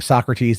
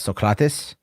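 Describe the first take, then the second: First: The name is said the familiar English way. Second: The name is said in an ancient Greek style. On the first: "instead of saying Socrates" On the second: "how they pronounce it in, in ancient Greece"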